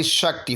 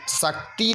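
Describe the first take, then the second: First: शक्ति as shak-ti with sh; short final i. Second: शक्ति as sak-tee with plain s; long final ee. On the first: Teacher correcting the spelling, शक्ति as brief shak-ti. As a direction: clip the ti in शक्ति. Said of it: "छोटी ई की मात्रा". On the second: Teacher showing the error, शक्ति as sak-tee. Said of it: "नहीं होगा". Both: Shown as a demonstration.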